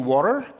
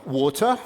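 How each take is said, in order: First: It is pronounced with a non-British accent. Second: It is pronounced with a British English accent. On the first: "elle n'a pas dit water" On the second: "elle a dit euh, water ... donc je pense que c'est un anglais"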